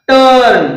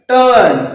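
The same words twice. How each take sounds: No difference in how they are said.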